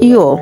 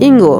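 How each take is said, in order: First: It ends on a plain vowel sound. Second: It ends with a hard 'ng-g' sound. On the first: The speaker calls it right. "এখানে সঠিক উচ্চারণ হবে" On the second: The speaker calls it wrong. "শিক্ষার্থীরা এটাকে বর্গীয় জ অথবা ইঙ্গ"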